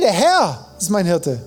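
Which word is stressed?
Herr. The stress is on Herr.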